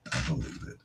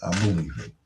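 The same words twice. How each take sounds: First: Breathy whisper, repeating it to himself; whispered echo. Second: Said in the usual way. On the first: Real, not acted. DJ whispering his own agreement back to listeners. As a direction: hush it as a private aside.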